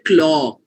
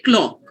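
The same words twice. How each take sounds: First: The vowel is stretched out long. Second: The vowel is kept short. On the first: The speaker calls it wrong. "You don't say clock" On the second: The speaker calls it right. "You say clock"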